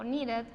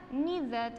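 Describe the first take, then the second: First: Needed with a light tapped D, "nee-red"; softened ED variant. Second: Needed in two syllables with a firm D, "need-ed"; full ED syllable. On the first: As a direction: tap the middle D in needed. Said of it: "o needed". (needed con la D suave, casi "niired") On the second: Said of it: "ese sonido se pronuncia como tal". (needed dicho "niid-ed", en dos sílabas) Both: Shown as a demonstration.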